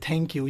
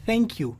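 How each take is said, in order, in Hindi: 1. पहली आवाज़ एक हल्की सांस वाली t stop है। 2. पहली आवाज़ एक हल्का fricative th है। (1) "वो ये नहीं कहते" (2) "असल एक्सेंट में ... वो बोलते हैं"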